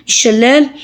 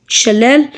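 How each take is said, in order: Both takes have the same delivery.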